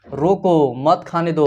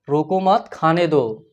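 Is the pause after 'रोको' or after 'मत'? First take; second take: after रोको; after मत. First: The pause comes after 'रोको'. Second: The pause comes after 'मत'.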